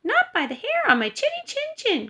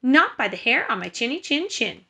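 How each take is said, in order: First: High-pitched little pig voice; crying out as little pig. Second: Firm refusal, only slightly raised voice; defiant little pig. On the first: First pig refuses the wolf at her door, high piggy cry. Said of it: "cried the first little pig". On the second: Third pig refuses the wolf from the brick house, firm voice. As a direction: stand your ground as the sensible pig. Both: A narrator's reading.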